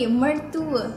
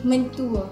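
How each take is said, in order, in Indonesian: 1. Suku kata pertama diakhiri dengan bunyi R. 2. Suku kata pertama diakhiri dengan bunyi N. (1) "Kita sebut ada R" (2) "Bukan mertua tetapi mentua"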